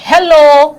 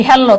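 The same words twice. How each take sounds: First: Drawn-out, louder হ্যালো with a long last vowel; হ্যালো held long, English-style; English-style hello. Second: Said in the usual way. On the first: Shown as a demonstration. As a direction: stretch হ্যালো out slowly. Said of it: "English হ্যালো". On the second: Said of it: "আমরা বলি হ্যালো".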